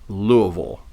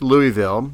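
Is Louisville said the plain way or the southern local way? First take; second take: southern; plain. First: Louisville gets a southern local pronunciation. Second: Louisville gets a plain general pronunciation. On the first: The speaker adopts the locals' way of saying it. The speaker calls it wrong. "they'll go Louisville" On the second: The speaker keeps their own normal way of speaking. The speaker calls it right. "It's Louisville"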